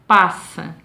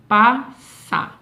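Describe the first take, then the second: First: Said in the usual way. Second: "Passa" split into two beats, PA, SSA, with a clear pause; separado em sílabas. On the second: Shown as a demonstration. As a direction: say "Passa" one syllable at a time. ("Passa" dito pausadamente, pa... ssa, sílaba por sílaba) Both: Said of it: "Eu abro a boca duas vezes".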